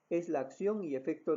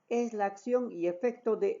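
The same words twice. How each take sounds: First: It is spoken at a normal pitch. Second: It is spoken at a high pitch. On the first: "En un tono normal" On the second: "con un tono agudo"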